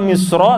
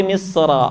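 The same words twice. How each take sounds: First: "misra" ending in a round o, like misro; wrong rounded vowel. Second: "misra" ending in an open, unrounded ra; open final vowel. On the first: Teacher showing the mistake, "misra" said as misro. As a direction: purse the last vowel of "misra" into o. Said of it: "Jadi bukan misra". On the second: Teacher giving the correction, open long ra in "misra". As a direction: open the mouth on the last a of "misra". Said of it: "tapi misra". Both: Shown as a demonstration.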